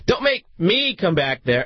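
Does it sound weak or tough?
weak. It sounds weak and not stern.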